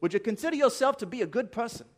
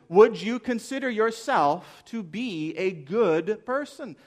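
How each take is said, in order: First: Higher, quick imitation New Zealand accent; Kiwi accent. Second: Slow, louder question in own accent; slow, deliberate question. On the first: Preacher mimicking an evangelist's question to students, mock Kiwi accent. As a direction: put on a badly faked Kiwi accent. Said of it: "in his delightful Kiwi accent". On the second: Real, not acted. Preacher putting the question to the congregation, slow and deliberate. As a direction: draw the question out emphatically, pitch climbing at the end.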